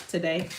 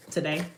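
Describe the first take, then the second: No difference in how they are said.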